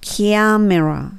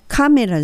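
First: The first syllable sounds like 'kya'. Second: The first syllable sounds like a plain 'ka'. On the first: The speaker calls it right. "キャメラしますね" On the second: The speaker calls it wrong. "このカメラじゃなくて"

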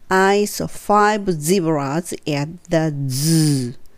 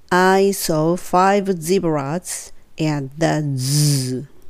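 The two takes are said the same way.

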